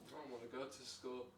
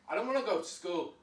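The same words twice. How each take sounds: First: It is said in a neutral, normal tone. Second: It is said in an angry tone.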